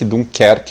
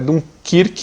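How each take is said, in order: First: The name ends with a 'kerque' sound. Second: The name ends with a 'kirk' sound. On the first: This is the name the speaker knows it by. "eu conheço como Dunkerque" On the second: This is what everyone calls it now. "agora tá todo mundo chamando Dunkirk"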